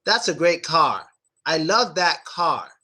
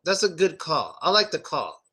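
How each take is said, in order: First: Car with the jaw dropped, open vowel; American car. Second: Car said like call, rounded vowel; wrong vowel demo. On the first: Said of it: "in American English". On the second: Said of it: "So it's not just call". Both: Shown as a demonstration.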